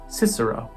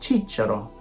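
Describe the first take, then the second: First: The word begins with an s sound. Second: The word begins with a ch sound. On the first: This is the English pronunciation. "In English" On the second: This is the church Latin pronunciation. "In ecclesiastical"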